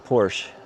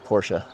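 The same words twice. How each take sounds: First: It is said with a common English pronunciation. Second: It is said with a German pronunciation. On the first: "Most people say Porsche" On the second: "Do it the German way is Porsche"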